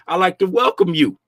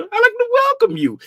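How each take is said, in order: First: Said in the usual way. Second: Squeaky high greeting to returning visitors; much higher playful welcome. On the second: Acted. Welcoming viewers in raised voice.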